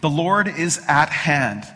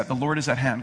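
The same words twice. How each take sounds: First: "The Lord is at hand" said slowly with weight on Lord; slow and weighty, stress on Lord; a proclamation, each word weighted; emphatic declaration. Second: Said in the usual way. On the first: Shown as a demonstration. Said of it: "get the emphasis of that". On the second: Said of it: "Turn to your neighbor and say".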